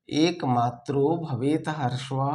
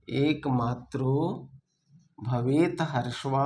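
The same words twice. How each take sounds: First: Said in the usual way. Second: Slow dictation. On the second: Shown as a demonstration. Teacher dictating the verse for students to copy, slowly. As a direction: spell it out slowly so they can write. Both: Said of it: "repeats the verse for dictation".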